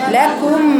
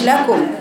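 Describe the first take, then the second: First: The vowel after k is a rounded u. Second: The vowel after k is an open a. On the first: The speaker calls it right. "كو كو ضمة" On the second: The speaker calls it wrong. "لا فتح كلام"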